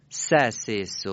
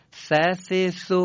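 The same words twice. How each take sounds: First: ث said as a plain s with the teeth together; s sound. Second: ث said as th with the tongue out; ث, tongue between the teeth, air blown over it; th sound. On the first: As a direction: teeth closed, ث as s. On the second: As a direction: contrast take, th version. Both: Shown as a demonstration. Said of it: "مقایسهٔ سهٔ سه نقطه با سین".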